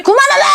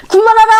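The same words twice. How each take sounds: First: Father snapping. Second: Louder mock snap broken by laughter; father snapping, laughing. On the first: Retold or imitated. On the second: Father telling the nagging mother to stop, laughing mock yell. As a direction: shout stop at her through a laugh. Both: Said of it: "그러니까 막 짜증내지".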